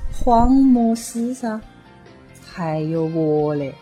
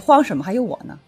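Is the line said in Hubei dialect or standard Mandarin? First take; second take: Hubei dialect; Mandarin. First: It is said in Hubei dialect. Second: It is said in standard Mandarin.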